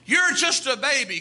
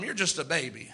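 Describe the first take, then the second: First: Declared out to the whole church; emphatic preaching. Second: Softer, as if said to a neighbour; quiet aside. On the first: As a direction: proclaim "You're" with force. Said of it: "That's what he said". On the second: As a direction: say it softly to the person beside you. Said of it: "Turn to somebody and tell him". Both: Shown as a demonstration.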